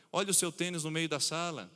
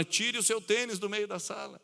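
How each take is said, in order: First: Said in the usual way. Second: "Tire o seu tênis do meio da sala" pitched up as a command; parent's firm command, raised a little; firm order. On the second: Shown as a demonstration. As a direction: turn a hint into an order. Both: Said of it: "Uma simples entonação de voz".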